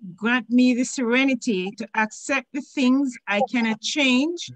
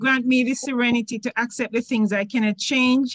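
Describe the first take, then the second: First: It is read at a slower pace. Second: It is read at a fast pace.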